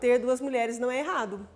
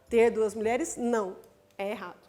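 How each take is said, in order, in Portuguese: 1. É lido direto, sem nenhuma pausa. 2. Há pausas em volta da palavra 'não'. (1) "Se eu leio sem a vírgula, eu estou afirmando" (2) "Não, nada disso"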